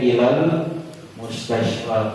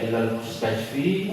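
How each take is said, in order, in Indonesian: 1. Kata terakhir berakhir dengan bunyi 'a' panjang. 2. Kata terakhir berakhir dengan bunyi 'i'.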